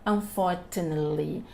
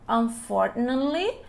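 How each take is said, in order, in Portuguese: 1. O som do T do meio é claramente pronunciado. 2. O som do T do meio é omitido. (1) "outras variantes da língua você pode ouvir" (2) "O inglês americano mais, ele come isso"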